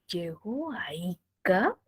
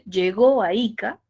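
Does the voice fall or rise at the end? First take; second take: rise; fall. First: The pitch rises at the end. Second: The pitch falls at the end. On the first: It is a question. "empieza desde abajo y sube" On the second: It is a statement. "tiene tono final descendente"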